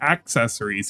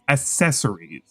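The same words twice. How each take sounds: First: The word is said with its usual s sounds. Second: The word is said with many extra s sounds. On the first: The speaker calls it right. "he doesn't say accessories" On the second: The speaker calls it wrong. "five S's in the word accessories for him because he says S S S S"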